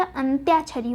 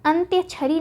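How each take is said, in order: First: अंत्याक्षरी with long ā after ty; अंत्याक्षरी, "tyā" held long; correct form shown. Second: अंत्यछरी with short a after ty; अंत्यछरी, "tya" kept short; wrong form shown. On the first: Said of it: "आ की मात्रा भी". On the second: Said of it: "नहीं होता". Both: Shown as a demonstration.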